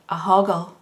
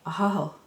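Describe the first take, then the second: First: It is said with a hard g sound. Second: It is said without a hard g sound. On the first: It is read out the way it is spelled. The speaker calls it wrong. "as a child, I said what I seen" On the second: This is the local way of saying it. The speaker calls it right. "That's how that's why we pronounce it"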